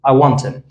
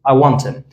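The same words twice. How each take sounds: First: The h is dropped; the t links into him. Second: The same.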